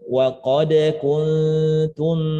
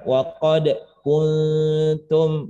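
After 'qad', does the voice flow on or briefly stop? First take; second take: flow on; briefly stop. First: The words flow on without any break after qad. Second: There is a brief stop right after qad. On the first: The speaker calls it right. "Jadi mengalir enggak kayak mau berhenti" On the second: The speaker calls it wrong.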